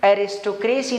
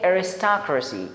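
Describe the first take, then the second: First: The last syllable is a full 'ay-see'. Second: The last syllable is a weak 'uh-see'. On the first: The speaker calls it wrong. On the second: The speaker calls it right.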